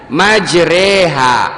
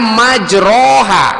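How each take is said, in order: First: The vowel after r is tilted toward 'e'. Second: The vowel after r is an open 'a'. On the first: This is how it is actually recited. "dibacanya majreha" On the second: This follows the written form. "tulisannya majroha"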